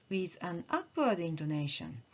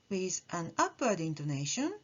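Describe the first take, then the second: No difference in how they are said.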